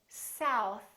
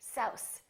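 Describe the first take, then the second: First: It ends in a plain, light th sound. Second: It ends in an s sound instead. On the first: The speaker calls it right. "instead of saying south" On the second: The speaker calls it wrong. "they say souse, souse, because they're pulling in their tongue too much"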